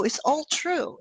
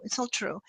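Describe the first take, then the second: First: Said in the usual way. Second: Whispered. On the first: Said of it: "blah, blah, blah, which is all true". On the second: Real, not acted. Repeated phrase fading to whisper.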